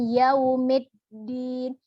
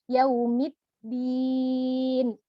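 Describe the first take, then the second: First: The vowel after m sounds like e. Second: The vowel after m is a clear i. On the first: The speaker calls it wrong. "bukan e, bukan yaumiddin" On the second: The speaker calls it right. "padahal dia harusnya yaumiddin"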